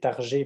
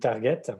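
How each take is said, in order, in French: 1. Le nom se prononce à la française. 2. Le nom se prononce à l'anglaise. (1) "on peut le prononcer Targé parce qu'il est français" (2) "ou target"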